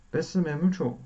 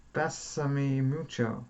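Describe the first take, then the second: First: Mock Italian accent. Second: Said in the usual way. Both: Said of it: "I can't do an Italian accent".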